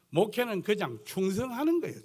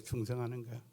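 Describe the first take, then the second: First: 충성하는 pressed firmly, falling at the end; preacher stressing 충성하는 with a falling close. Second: 충성하는 repeated much softer, almost to himself; quiet afterthought repeat of 충성하는; softer echo. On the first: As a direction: lean on 충성하는 to drive the point home. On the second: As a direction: let 충성하는 fall away quietly. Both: Shown as a demonstration.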